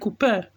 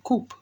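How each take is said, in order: First: The final e is pronounced as a syllable. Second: The final e is silent, one syllable. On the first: This is how some other people say it. "some people call it coupe" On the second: This is the speaker's own preferred way. "I'm thinking the e is silent"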